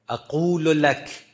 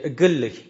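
First: It is said with a standard q sound. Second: It is said the Iraqi way, with g.

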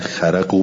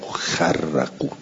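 First: The r sound is single and short. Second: The r sound is doubled and held longer. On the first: "به تخفیف" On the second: "به تشدید"

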